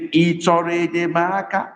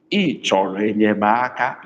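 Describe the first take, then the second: First: "Ị chọrọ enyemaka" held high throughout; high tone question. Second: "Ị chọrọ enyemaka" sinking to low tones. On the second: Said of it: "Low tone". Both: Shown as a demonstration.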